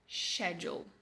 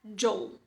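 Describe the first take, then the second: First: The word begins with an sh sound. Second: The word begins with an sk sound. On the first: "No britânico padrão, a pronúncia é schedule" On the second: "Essa é a pronúncia do American English"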